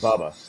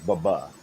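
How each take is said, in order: First: The second syllable is said weak and unstressed. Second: The second syllable is said hard and stressed. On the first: The speaker calls it wrong. "Baba wasn't Bubba" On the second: The speaker calls it right. "with the the hard second syllable"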